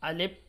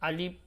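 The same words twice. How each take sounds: No difference in how they are said.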